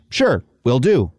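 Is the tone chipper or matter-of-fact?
matter-of-fact. It is said in a flat, matter-of-fact tone.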